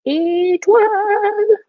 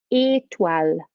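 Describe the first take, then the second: First: "Étoile" sung out high, last syllable held long; high drawn-out call. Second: Said in the usual way. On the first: Shown as a demonstration. Teacher leading children's repetition of star, high drawn-out call.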